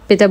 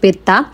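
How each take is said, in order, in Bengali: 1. মাঝের ব্যঞ্জনটি ছোট এবং একক। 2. মাঝের ব্যঞ্জনটি দীর্ঘ এবং দ্বিত্ব। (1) "আমি জাস্ট পেটা পেটা বলছিলাম এতক্ষণ ধরে" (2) "আসল উচ্চারণ হচ্ছে পেত্তা"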